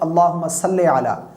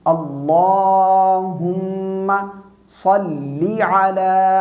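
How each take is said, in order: First: The second word ends in an ay vowel. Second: The second word ends in a long ee vowel. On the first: The speaker calls it wrong. "सल्ली इसको सल्ले पढ़ते हैं, सल्ले नहीं है ये" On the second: The speaker calls it right.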